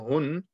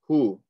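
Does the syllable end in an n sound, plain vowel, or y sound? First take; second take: n sound; plain vowel. First: The syllable ends with an n sound. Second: The syllable ends on a plain vowel. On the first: "normally read as hun" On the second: "we're just going to say hu"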